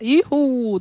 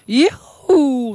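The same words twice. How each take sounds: First: It is said at a normal, softer volume. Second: It is said loudly, almost shouted.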